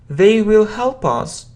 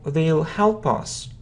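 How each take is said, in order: First: The word will is said in full. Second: Will is shortened and joined to they.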